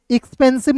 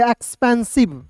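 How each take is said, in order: First: एक्सपेंसिव starting with short I, "ikspensib"; wrong pronunciation. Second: एक्सपेंसिव starting with open E, "ekspensib"; correct pronunciation. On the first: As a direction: open एक्सपेंसिव on an "ik" sound. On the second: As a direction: open एक्सपेंसिव on an "eks" sound. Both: Shown as a demonstration. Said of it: "एक्सपेंसिव नहीं पढ़ेंगे".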